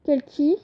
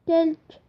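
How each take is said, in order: First: "quelques" ending in "ki"; invented-language form. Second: Said in the usual way. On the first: Shown as a demonstration. Teacher gives learners the Malingue word, "quelques" as "kel-ki". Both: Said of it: "ça se dit".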